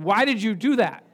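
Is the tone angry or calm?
angry. It is said in an angry, accusing tone.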